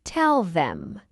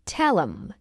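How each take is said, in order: First: "tell them" as two full words; full form. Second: "Tell 'em" linked, no th; reduced form. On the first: Teacher explains what tell 'em means, full form. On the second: Teacher shows learners the short form, reduced. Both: Shown as a demonstration. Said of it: "It means tell them".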